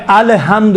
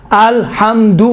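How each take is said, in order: First: "الحمد" with a vowel slipped in after L; wrong extra vowel. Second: "الحمد" with L closed straight onto H. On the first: Teacher showing students the mistake, vowel after the L. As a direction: break "الحمد" into a-le-ham-du. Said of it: "الحمد نہیں ہے". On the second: Teacher correcting the students' reading, clean closed L. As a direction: say "الحمد" as al-ham-du, no vowel after L. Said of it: "ال، ال نہیں ہے". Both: Shown as a demonstration.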